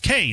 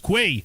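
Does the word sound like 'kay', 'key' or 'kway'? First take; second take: kay; kway. First: The word sounds like 'kay'. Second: The word sounds like 'kway'. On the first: "I always cycle through different pronunciations" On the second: "I always cycle through different pronunciations"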